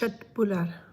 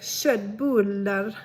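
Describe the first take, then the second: First: The word is said plainly, without extra emphasis. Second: The word is said with strongly exaggerated emphasis. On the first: "so it's köttbullar" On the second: "if you want to make it really Swedish"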